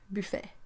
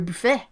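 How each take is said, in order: First: It is said with a French accent. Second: It is said with an exaggerated lumberjack accent. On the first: "pronounced like in French and German" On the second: "That was my really lumberjack accent"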